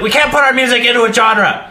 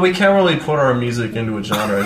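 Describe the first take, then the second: First: It is said in an angry, forceful tone. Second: It is said in a calm, mild tone. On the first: The speaker comes across as intimidating. The speaker calls it right. "You just have to say it angrily" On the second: The speaker comes across as pretentious. The speaker calls it wrong. "that makes you sound like an asshole"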